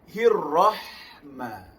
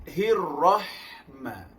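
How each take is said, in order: No difference in how they are said.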